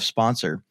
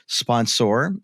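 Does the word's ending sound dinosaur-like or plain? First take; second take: plain; dinosaur-like. First: The ending sounds like an ordinary unstressed -er. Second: The ending sounds like the end of dinosaur. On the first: "instead of sponsor" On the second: "I do something silly... I say uh, sponsor"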